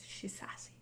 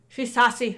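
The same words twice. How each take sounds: First: Tiny unvoiced Cockney whisper; hushed, under the breath; barely audible. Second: Louder, clearly voiced Cockney; projected, after being asked to speak up. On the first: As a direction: whisper it almost to yourself. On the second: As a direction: say it up so they can hear. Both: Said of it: "You wanna speak up a bit?".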